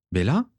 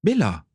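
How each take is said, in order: First: BELLA called with a rising questioning end; "Bella?" as a tentative question, pitch lifting. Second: BELLA exclaimed higher, falling at the end; startled "Bella!" with a dropping tune; shocked exclamation. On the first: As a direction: call "Bella?" to get her attention, voice going up. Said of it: "l'appela Régulus". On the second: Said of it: "s'exclama Régulus choqué". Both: A narrator's reading.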